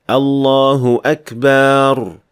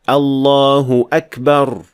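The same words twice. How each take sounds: First: The last vowel of Akbar is stretched long. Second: The last vowel of Akbar is short. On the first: The word means drums. The speaker calls it wrong. "adding alif to Akbar ... which sounds like this" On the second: The word means the greatest. The speaker calls it right. "there is no mad at all in any part of this word"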